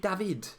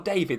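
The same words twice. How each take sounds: First: The name is said with Mediterranean pronunciation. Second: The name is said with English pronunciation. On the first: "I think it should be David. Should be like Mediterranean" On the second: "Is it David or David Solis?"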